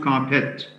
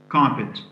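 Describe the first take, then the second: First: The stress is on the second syllable. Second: The stress is on the first syllable. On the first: The speaker calls it wrong. "So it's not carpet" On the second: The speaker calls it right. "The word carpet has its first syllable stressed"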